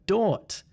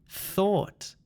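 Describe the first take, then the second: First: The word begins with a d sound. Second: The word begins with a th sound. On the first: The speaker calls it wrong. "This sound is not a D sound" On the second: The speaker calls it right. "It's thing, think, theory, thought"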